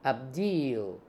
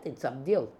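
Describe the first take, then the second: First: The second vowel is drawn out long. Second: The second vowel is kept short. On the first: The speaker calls it wrong. "Double E, it makes it long" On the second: The speaker calls it right. "it's not like that, it's Abdil"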